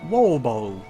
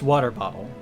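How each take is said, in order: First: It is said in a Cockney accent, t's dropped. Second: It is said in the speaker's normal accent.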